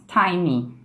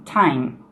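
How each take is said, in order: First: "Time" as "TIME-ee", extra final vowel; Brazilian-accented "time". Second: "time" as one syllable ending on m; dictionary pronunciation. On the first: Teacher showing Brazilian learners' habit, "time" with added vowel. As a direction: add an "ee" after the m in "Time". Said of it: "O brasileiro faz". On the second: Teacher giving students the dictionary form, "time" ending in m. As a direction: close "time" on the m, no vowel after. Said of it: "a pronúncia no dicionário seria". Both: Shown as a demonstration.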